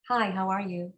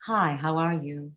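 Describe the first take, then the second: First: Said in the usual way. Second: Deeper dropped-larynx voice; low larynx. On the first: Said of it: "And then normal larynx". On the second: Shown as a demonstration. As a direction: drop the larynx for depth. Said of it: "And then a drop larynx".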